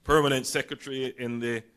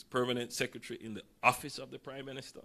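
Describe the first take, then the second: First: Said in the usual way. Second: "permanent secretary in the Office of the Prime Minister" said quickly, with pointed weight on the full title; stressed full title. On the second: Shown as a demonstration. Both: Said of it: "pay close attention to this".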